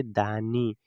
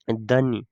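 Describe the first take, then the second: First: दानी with a long 'aa'; correct pronunciation. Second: दनी with a short first vowel; misread pronunciation. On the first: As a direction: say दानी, 'daa-nee', drawing out the first vowel. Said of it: "इसे पढ़ेंगे दानी". (दानी, पहले अक्षर में लंबा आ) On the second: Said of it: "इसे दनी नहीं". (दनी, गलत उच्चारण में पहला स्वर छोटा) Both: Shown as a demonstration.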